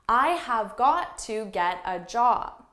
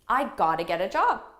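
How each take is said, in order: First: Every word is said fully and separately. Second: The words are reduced and run together quickly. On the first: "a learner would say" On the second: "I would say it naturally"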